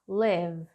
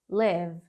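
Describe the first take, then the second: No difference in how they are said.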